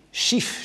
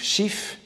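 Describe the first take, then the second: First: A breathy whispered call of the friend's name. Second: The name whispered again, pitched much higher; higher whispered call. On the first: Proust sighing for his friend, whispered call. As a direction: whisper the name like a longing cry. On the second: Proust calling Schiff like Tristan, high whispered plaint. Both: Retold or imitated. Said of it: "Et à force de dire".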